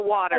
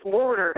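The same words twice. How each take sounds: First: Said in the usual way. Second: "water" said in a regional accent, unlike the standard form; regional pronunciation of water. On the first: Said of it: "says water". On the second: Shown as a demonstration. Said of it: "for water".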